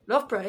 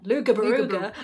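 First: The name has no g sound. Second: The name has a hard g sound. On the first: The speaker calls it right. "the way that it is pronounced" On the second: The speaker calls it wrong. "when you see it written down, it's not your first instinct"

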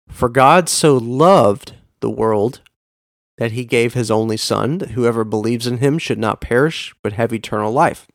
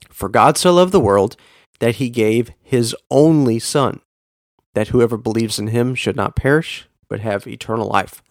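First: The stress is on the word loved. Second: The stress is on the word only.

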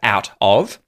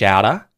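First: The words are said separately with a clear T and V sound. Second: The words run together with a flapped T and no V sound. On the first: "instead of out of" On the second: "a fish outer, outer, outer, instead of out of"

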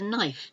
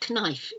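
First: The K sound is silent at the start. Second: The K sound is pronounced at the start. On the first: The speaker calls it right. "it's a knife" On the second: The speaker calls it wrong. "It's not a knife"

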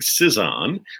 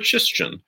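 First: The surname is pronounced the English way. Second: The surname is pronounced the Polish way.

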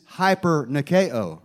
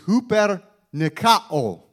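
First: The word begins with a 'high' sound. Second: The word begins with a 'hoo' sound. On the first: "if you read it in English, ... we would say" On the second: "in the Greek, it's pronounced like this"

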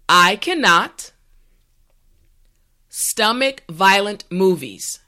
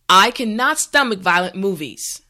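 First: The sentence is said slowly and carefully. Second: The sentence is said at a natural speed. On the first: "this time repeat after me" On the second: "this time we will go at a more natural pace"

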